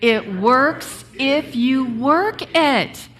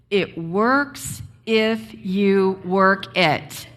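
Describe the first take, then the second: First: Slow and louder, leaning on "work"; a firm, punchy restatement; emphatic repeat. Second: Said together. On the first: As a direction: drive home "It works if you work it", stressing "work". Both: Shown as a demonstration.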